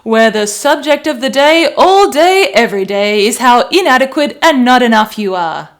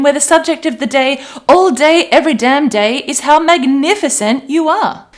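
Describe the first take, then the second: First: Loud, punchy mock talk-radio rant; nasty radio host. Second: Higher, much louder cheery announcer build; upbeat radio host. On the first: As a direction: hammer it like a nagging shock jock. Mocking the nasty talkback radio. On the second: Pretend. Coach hyping the self-love station, higher and louder. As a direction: sell it like the best station on air.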